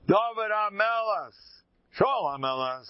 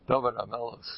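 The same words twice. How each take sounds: First: Proclaiming. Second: Said in the usual way. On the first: Shown as a demonstration. Proclaims the kings' names.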